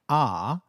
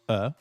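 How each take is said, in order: First: The word is said with a full vowel. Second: The word is said with a reduced neutral vowel.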